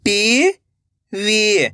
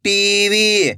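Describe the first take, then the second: First: "TV" split into two long syllables. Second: Said in the usual way. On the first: Shown as a demonstration. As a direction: draw out टी, pause, then वी in "TV". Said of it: "एक एक अक्षर का उच्चारण". ("TV" को तोड़कर, टी... वी) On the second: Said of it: "तो मिलके बन जाएगा".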